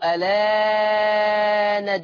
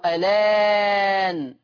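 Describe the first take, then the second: First: The long vowel is held at length. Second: The long vowel is held moderately. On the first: "فيه النقل مع التثليث" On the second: "فيه النقل مع التثليث"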